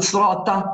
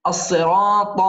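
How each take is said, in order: First: صراط said quickly with lighter letters, like "srata"; mispronunciation demo. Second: الصراط with heavy ص and ط, long aa; correct emphatic letters. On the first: Teacher shows what to avoid, صراط said too lightly. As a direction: flatten out the long heavy syllable of صراط. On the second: Teacher corrects it, الصراط heavy and drawn out. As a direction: draw out الصراط with full, heavy consonants. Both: Shown as a demonstration. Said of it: "لا نقول صراط".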